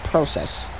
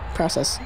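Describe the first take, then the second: First: It is said in an attempted British accent. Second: It is said in a plain American accent. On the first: "I wanted to sound British for a second" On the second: "I'll just stick with being regular process"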